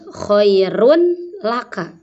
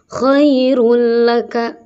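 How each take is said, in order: First: The n is pronounced clearly before the l. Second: The n merges fully into the following l. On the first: The speaker calls it wrong. "Tetapi tidak boleh khairun laka" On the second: The speaker calls it right. "Dimasukkan, dileburkan, kemudian cepat"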